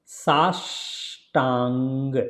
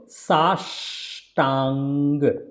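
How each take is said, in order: No difference in how they are said.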